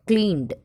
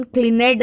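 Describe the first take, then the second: First: क्लीन्ड as one syllable, kleend; correct pronunciation. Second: क्लीनेड said with an extra syllable, klee-ned; wrong pronunciation. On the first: Teacher giving students the right form, kleend. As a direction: clip क्लीन्ड short, no extra vowel. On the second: Teacher showing students the wrong way, klee-ned. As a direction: say क्लीनेड as three beats, the wrong way. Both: Shown as a demonstration. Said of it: "क्लीनेड नहीं बोलते अपन".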